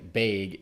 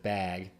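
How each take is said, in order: First: It is said with a Midwestern pronunciation. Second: It is said without a Midwestern pronunciation.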